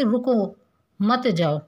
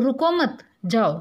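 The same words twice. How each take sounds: First: रुको, long pause, then मत जाओ together; pause after रुको. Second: रुको मत together, pause, then जाओ; pause after मत. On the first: Teacher contrasting two comma placements, pause after रुको. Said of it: "रुको के पीछे लगा दिया था". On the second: Teacher contrasting two comma placements, pause after मत. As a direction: join रुको to मत, set जाओ apart. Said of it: "उसका अर्थ होगा तुम रुको मत". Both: Shown as a demonstration.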